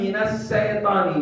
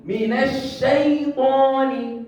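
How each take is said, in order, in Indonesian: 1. Kata ini diawali dengan bunyi 's' biasa. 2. Kata ini diawali dengan bunyi 'sh' yang murni. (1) "huruf shin ditukar dengan huruf sin. Salah" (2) "Saya mau dengar huruf shin, ya, yang murni"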